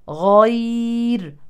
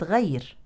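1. صوت gh مفخّم، واللسان مرتفع في الخلف. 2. صوت gh مرقّق، واللسان منخفض في الخلف. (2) "وليست غير"

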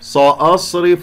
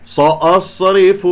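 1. الحرف الأول سين مفخمة ثقيلة. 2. الحرف الأول سين مفخمة ثقيلة.

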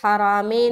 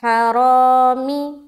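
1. आख़िरी स्वर मध्यम 'ay' जैसी आवाज़ है। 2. आख़िरी स्वर ऊँचा 'ee' जैसा है। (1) "हरामे नहीं पढ़ेंगे" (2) "मारूफ पढ़ें। तो यहाँ पर हम पढ़ेंगे हरामी"

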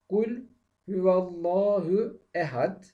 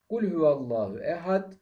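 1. Daha yavaş bir tempoyla okunuyor. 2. Daha hızlı bir tempoyla okunuyor.

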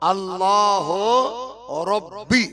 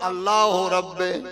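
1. শেষ শব্দটি 'i' ধ্বনিতে শেষ হয়েছে। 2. শেষ শব্দটি 'e' ধ্বনিতে শেষ হয়েছে। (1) "এটা অ্যাকচুয়ালি উচ্চারণ হচ্ছে আল্লাহ রব্বি।" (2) "আপনাদের কাছে বলে বলে আমি কি বললাম?"

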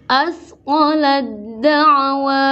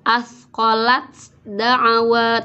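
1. Bunyi t langsung menyatu dengan d ganda. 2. Bunyi t diucapkan sebelum d. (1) "tapi langsung ke dal" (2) "Tidak asqalat da'wa"

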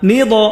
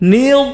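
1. d ধ্বনিটি প্রতিধ্বনিময় ঝংকার দিয়ে শেষ হয়। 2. d ধ্বনিটি ভারী এবং ঝংকারবিহীন। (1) "দদ কলকলা হবে না, নি দ এমন না" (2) "দদ হরফটা একটু মোটা করলাম ... দূরে রাখতে হবে"

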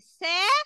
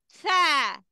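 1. يبدأ بصوت 's' صفيري. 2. يبدأ بصوت 'th'، اللسان بين الأسنان. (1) "لو انا قلت سا كده غلط" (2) "لازم لساني يخبط في سناني"

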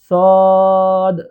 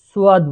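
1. স্বরের আগে কোনো অতিরিক্ত ধ্বনি নেই। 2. স্বরের আগে একটি অতিরিক্ত 'u' ধ্বনি আছে। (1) "সঠিক উচ্চারণ হলো সদ" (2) "অনেকে আমরা এটাকে সুয়াদ বলি"

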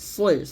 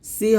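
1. 's' ধ্বনিটি ভারী ও মোটা। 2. 's' ধ্বনিটি হালকা ও পাতলা। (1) "সদ মোটা করে" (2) "সি হবে না"

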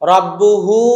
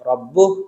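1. শব্দটি পূর্ণ শেষ স্বরে শেষ হয়। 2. শব্দটি স্বর ছাড়া, ছোট হয়ে শেষ হয়। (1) "রব্বুহু উল্টা পেশে" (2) "সাকিন হয়ে যাবে, তখন হবে রব্বু"

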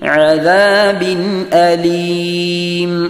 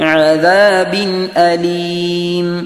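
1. അലീമിന് മുമ്പായി ഹംസ വ്യക്തമായി ഉച്ചരിക്കപ്പെടുന്നു. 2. അലീമിന് മുമ്പായി ഹംസ വ്യക്തമായി ഉച്ചരിക്കപ്പെടുന്നു.

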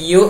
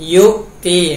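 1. พยางค์แรกไหลต่อไปโดยไม่มีเสียงสะดุดกล่องเสียง 2. หลังพยางค์แรกมีเสียงสะดุดกล่องเสียงชัดเจน (1) "ไม่ใช่ยุ อย่าให้มีฮัมซะห์ทอสะท้อนออกมา" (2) "เสียงแข็ง"

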